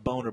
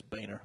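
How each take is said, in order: First: "Boner" said with a long oh, BOH-ner; "Boner" with oh in the first syllable; pronounced "Boner". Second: "Boehner" said with a long ay, BAY-ner; "Boehner" with ay in the first syllable; pronounced "Boehner". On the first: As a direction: say "Boner" as it looks, rhyming with loner. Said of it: "It could be pronounced Boner". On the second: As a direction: say "Boehner" to rhyme with trainer. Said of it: "wants people to say it's Boehner". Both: Shown as a demonstration.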